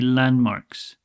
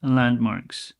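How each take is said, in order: First: The d sound in the middle is dropped. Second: The d sound in the middle is dropped.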